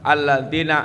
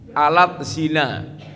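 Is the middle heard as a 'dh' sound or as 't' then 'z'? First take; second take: dh sound; t then z. First: The middle has a soft 'dh' sound. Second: The middle has a 't' then a 'z'. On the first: The speaker calls it right. "Panjenengan maos Arabipun" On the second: The speaker calls it wrong. "Kek tulisan Latinipun dipoco alat zina"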